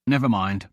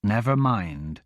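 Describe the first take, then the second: First: Low, bitter and miserable. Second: Slow, low echo of bitter words; echoing bitterly. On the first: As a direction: let it out bitterly, giving up. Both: A narrator's reading. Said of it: "miserable, bitter sound of the words".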